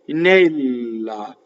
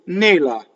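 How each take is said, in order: First: The L sound is held long. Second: The L sound is short. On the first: "double L" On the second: "Versus single L"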